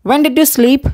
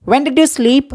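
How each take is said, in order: Both takes have the same delivery.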